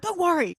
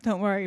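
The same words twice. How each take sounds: First: High, exasperated mock yell; retold snappy call to the kids. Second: Said in the usual way. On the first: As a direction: brush them off in a raised, higher pitch. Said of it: "Why are you yelling at them?".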